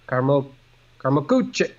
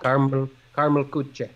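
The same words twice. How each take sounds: First: It is said in an attempted German accent. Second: It is said in a plain, non-German accent. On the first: "how would I Germanize that?" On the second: "I'm saying it without a German accent"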